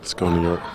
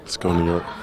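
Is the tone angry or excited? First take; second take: angry; angry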